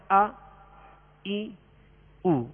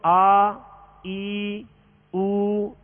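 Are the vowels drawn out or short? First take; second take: short; drawn out. First: The vowels are short and clipped. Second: The vowels are stretched out long. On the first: The speaker calls it right. "حرکات کو بغیر کھینچے بغیر جھٹکا دیے معروف پڑھیں گے. جیسے ہم پڑھ رہے ہیں" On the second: The speaker calls it wrong. "اس طرح نہیں کریں گے, یہ دراز ہو جائے گی"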